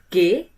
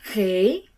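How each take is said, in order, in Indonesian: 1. Huruf itu diawali dengan bunyi g keras. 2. Huruf itu diawali dengan bunyi serak di tenggorokan. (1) "huruf G dalam bahasa Indonesia" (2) "disebutkan G dalam bahasa Belanda"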